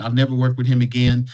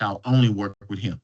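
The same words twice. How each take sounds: First: Mildly fed up, hit never; fed-up vow. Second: Lower, leaning on only; mild awe, stress only; won-over vow. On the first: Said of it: "somebody's like". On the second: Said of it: "they're like". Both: Retold or imitated.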